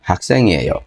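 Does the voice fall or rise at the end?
fall. The voice falls at the end, as a statement.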